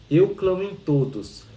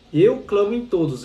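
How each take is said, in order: First: Slow, even recital of a sacred line; calm reading voice. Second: EU punched louder and higher; proclaimed. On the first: Retold or imitated. Teacher reads the text to her student, slow and even. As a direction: read it slowly, like a gentle audiobook narrator. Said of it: "ela fica assim". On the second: Shown as a demonstration. Teacher repeats the key line to her student, emphatic and raised. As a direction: declare "Eu clamo em todos" with force on Eu. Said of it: "Essa voz interior você tem que ouvir".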